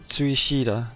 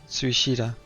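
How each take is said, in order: No difference in how they are said.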